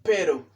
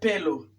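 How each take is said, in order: First: It is said with an R sound. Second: It is said with an L sound. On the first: The speaker calls it right. "sino pero" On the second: The speaker calls it wrong. "no es pelo"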